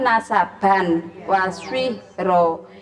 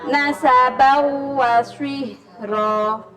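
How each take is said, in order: First: A clear n is heard before the w. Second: The n merges into the following w sound. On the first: "Tulisannya kan nasaban wasihro" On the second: "Bacanya nasabau wasihro"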